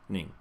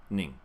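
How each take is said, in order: Both takes have the same delivery.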